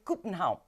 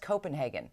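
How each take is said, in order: First: It is said with a Danish accent. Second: It is said with an English accent.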